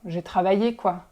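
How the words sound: The tone is annoyed and kind of aggressive. Obviously I worked, stop asking. "you sound really annoyed"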